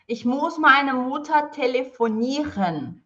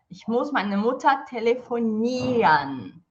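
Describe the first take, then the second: First: The ending has a clearly sounded R. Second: The ending is said as if without R. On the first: The speaker calls it wrong. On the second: The speaker calls it right.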